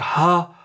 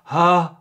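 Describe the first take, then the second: The two takes are said the same way.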